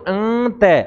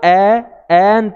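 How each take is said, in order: First: The word opens with a short, clipped vowel. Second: The vowel is drawn out before the nasal sound. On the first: The speaker calls it wrong. "ऐसे नहीं बोलेंगे अंत" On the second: The speaker calls it right. "इसको एंत बोलेंगे"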